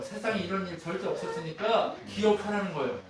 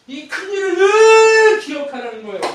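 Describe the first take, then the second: First: Said in the usual way. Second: Very high, loud proclamation; shouted preaching. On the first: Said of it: "repeats the point, plain then shouted". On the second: Acted. Preacher crying out the charge to remember, very loud. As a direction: proclaim it as loud as you can.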